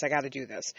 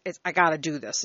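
First: Softer, muttered under the breath; quiet repeat to herself. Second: Said in the usual way. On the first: Real, not acted. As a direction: say it again just for yourself, much softer.

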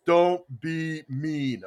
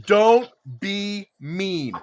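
First: Drawn out slowly, word by word; slow, deliberate reading. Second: Each word drawn out slowly; slow, deliberate reading. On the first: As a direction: read it slow like big letters. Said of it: "in big letters". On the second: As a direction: spell out the sticker slowly. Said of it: "three words on it". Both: Retold or imitated.

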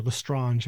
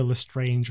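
First: "Lestrange" with an AH vowel and soft zh ending; French-style pronunciation. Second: "Lestrange" said like the English word strange; anglicised pronunciation. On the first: Podcast host offering the other surname reading, French-style "Lestrange". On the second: Podcast host unsure of a character's surname, English-style "Lestrange". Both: Shown as a demonstration. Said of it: "not sure how it's actually pronounced".

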